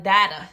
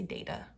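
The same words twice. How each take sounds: First: "data" with a short flat a, as in "dat"; loud "data" rhyming with "matter"; other pronunciation. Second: Said in the usual way. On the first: Shown as a demonstration. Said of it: "I don't say that". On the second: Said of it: "I say data".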